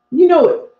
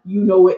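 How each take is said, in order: First: Louder, higher punch on you; louder and higher this time, driving it home to the audience; emphatic callout. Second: Said in the usual way. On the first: Real, not acted. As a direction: hit it hard like a rallying cry. Emphatic repeat of a rallying line.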